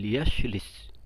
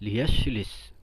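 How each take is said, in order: Both takes have the same delivery.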